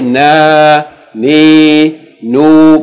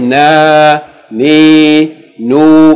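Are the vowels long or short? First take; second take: long; long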